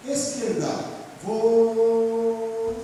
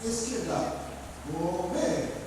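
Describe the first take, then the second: First: "Vou" esticado, alto e sustentado, sem o "ver"; comando suspenso antes do V. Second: "Vou" alongado que detona em "ver"; comando completo, tônica no V. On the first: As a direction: chame "Esquerda" e segure um longo "Vou" sem concluir. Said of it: "Porque o comando não foi dado". (voz de comando, "Vou" prolongado e suspenso) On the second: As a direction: chame "Esquerda", segure "Vou" e solte "ver" firme. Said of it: "só é dado quando você dá a sílaba tônica". (voz de comando que conclui em "ver") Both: Shown as a demonstration.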